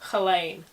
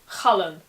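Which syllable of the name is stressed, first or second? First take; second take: second; first. First: The stress is on the second syllable. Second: The stress is on the first syllable. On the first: The speaker calls it wrong. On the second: The speaker calls it right. "the emphasis is on the first syllable"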